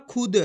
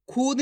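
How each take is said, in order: First: खुद with a short u; right short u. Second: खुद stretched with a long oo, the wrong way. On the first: Teacher to pupils, giving the correct reading. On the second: Teacher to pupils, showing how not to read it. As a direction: drag out the u in खुद as a mistake. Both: Shown as a demonstration. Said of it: "खुद नहीं पढ़ना खुद".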